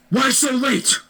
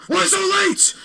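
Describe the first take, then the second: First: High mock-stern teacher demanding an answer; scary teacher. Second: Very high, baffled repeat of the question; confused echo. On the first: Teacher scolds late Wyatt, mock stern and high. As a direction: ask it like an irritated teacher. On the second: Retold or imitated. Wyatt repeats the teacher's question, very high and baffled. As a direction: echo it back in shocked disbelief.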